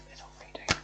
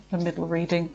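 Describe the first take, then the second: First: Much softer, breathy whisper to herself. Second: Said in the usual way. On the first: Real, not acted. Reader muttering to herself, repeating the card spot, whisper. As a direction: whisper it under your breath.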